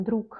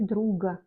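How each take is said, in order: First: "друg" with a final k, "drook"; devoiced final consonant. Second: "друg" with a voiced final g, "droog"; spelling pronunciation. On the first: Teacher showing how one reads it, "друg" as drook. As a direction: end "друg" on a voiceless k. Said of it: "on lit comme друg". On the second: Teacher showing the written form, "друg" with voiced g. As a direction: end "друg" on a hard g. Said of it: "on écrit друg". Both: Shown as a demonstration.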